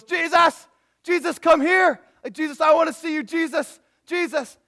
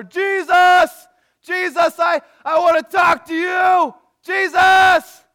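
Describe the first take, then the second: First: Loud, high-pitched acted shouting; calling out. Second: Full-force, high, desperate acted yell; louder, angrier shouting. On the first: Blind beggar calling to Jesus passing by, calling out. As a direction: yell to someone far off in a crowd. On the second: Angrier blind man shouting over the crowd to Jesus, louder yelling. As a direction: bellow the name at the top of your voice. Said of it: "and he gets louder".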